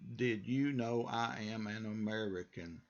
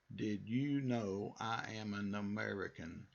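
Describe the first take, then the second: First: Each word is said fully and separately. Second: The same.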